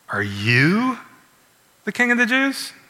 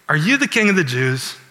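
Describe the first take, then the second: First: The question is asked in a scornful, disbelieving way. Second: The question is asked in a plain, neutral way.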